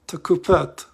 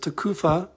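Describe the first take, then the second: First: The word ends in a t sound. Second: The word ends in an open vowel. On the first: "we have the Tau ending, so that's a, a T sound" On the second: "Commonly pronounced as Tekufa"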